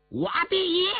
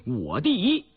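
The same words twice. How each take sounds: First: High-pitched defiant yell. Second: Said in the usual way. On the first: A narrator's reading. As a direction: cry it out high as a boast. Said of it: "印额挑着眉毛大叫了一声". (挑衅地高声大叫) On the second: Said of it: "你敢大喊一声".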